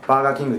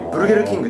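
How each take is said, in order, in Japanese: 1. 最初の単語は「baagaa」と言います。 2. 最初の単語は「burugeru」と言います。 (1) "ロシアでバーガーキングって言っても通じません" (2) "ブルゲルなんです。なんでブルゲルキングって言えば"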